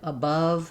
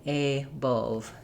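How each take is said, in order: First: The first vowel is a short, reduced uh sound. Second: The first vowel is a clear, full ah sound. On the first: The speaker calls it right. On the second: The speaker calls it wrong.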